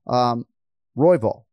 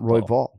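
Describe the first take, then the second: First: The stress is on the first syllable. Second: The stress is on the second syllable. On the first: The speaker calls it right. "you got to emphasize the first syllable here" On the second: The speaker calls it wrong.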